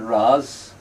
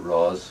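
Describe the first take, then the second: First: It is said with an Ulster pronunciation. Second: It is said with a southern Irish pronunciation. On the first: "we call it Ras" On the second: "down south, uh, they pronounce it Ros, which is probably the correct pronunciation"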